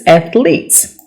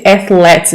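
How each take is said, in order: First: Athletes with a long E, ath-leets; athletes, leets ending; correct athletes. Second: Athletes with a short E, ath-lets; athletes, lets ending; mock wrong athletes. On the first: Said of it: "it's athletes". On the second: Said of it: "Some people say athletes". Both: Shown as a demonstration.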